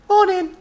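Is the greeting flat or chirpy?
chirpy. It is said in a bright, chirpy tone.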